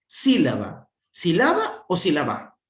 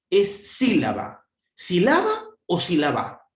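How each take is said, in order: First: Sílaba, sílaba o sílaba again, the stress on a different syllable each time; stress shifted each time. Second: Sílaba, sílaba o sílaba, moving the stress to a different syllable on each one; stress shifted each time. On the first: (sílaba, sílaba o sílaba, cambiando el acento) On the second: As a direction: sweep the stress across the three syllables of sílaba. (sílaba con la fuerza en otra sílaba cada vez) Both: Shown as a demonstration. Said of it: "Dónde le más fuerza de voz".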